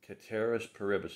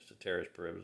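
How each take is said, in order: First: The first word begins with a K sound. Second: The first word begins with an S sound. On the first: This follows the Latin pronunciation. "the C in Latin is a hard, like a hard C, like a K" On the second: This follows the Americanized pronunciation. "if you want to put it that way"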